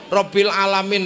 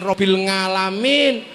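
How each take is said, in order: First: Alamin begins with a throat or vowel onset. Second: Alamin begins with an ng sound.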